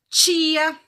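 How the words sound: The word starts with a 'ch' sound. This is how people further south say it. "a gente aqui mais pro sul, né, a gente vai falar tia"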